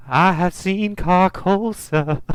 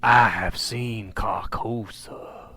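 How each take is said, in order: First: Put-on high, slow, drawn-out old woman's voice; imitated older lady. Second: Slow, drawn-out voiceless whisper; eerie whisper. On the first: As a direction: mimic a confused old witness, pitched up and slow. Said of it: "she's, like, an older lady". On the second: Retold or imitated. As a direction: whisper it like an ominous secret. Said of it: "you hear him whispering".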